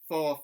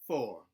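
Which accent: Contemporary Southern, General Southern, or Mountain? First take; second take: General Southern; Contemporary Southern. First: General Southern accent, with the R sound dropped. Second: Southern down gliding, with the R sound pronounced. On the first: "So from one to ten in General Southern" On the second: "Contemporary Southern... I'm still doing some down gliding, but I'm adding R sounds back in"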